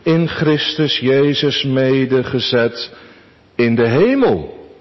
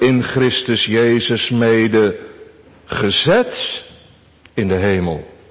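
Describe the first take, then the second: First: The stress falls on the word hemel. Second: The stress falls on the part gezet. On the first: "Onze eerste gedachte" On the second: "Onze tweede gedachte"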